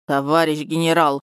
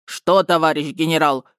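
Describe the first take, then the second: First: Plaintive drawl. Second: Mocking mimicry. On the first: Acted. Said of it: "жалобно протянул Краснобаев". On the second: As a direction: echo him mockingly. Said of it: "передразнил его Бочкин".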